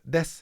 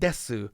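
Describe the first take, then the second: First: The final u vowel is dropped. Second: The final u vowel is fully pronounced. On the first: "You would know mas, des" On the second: "they're not saying masu and desu"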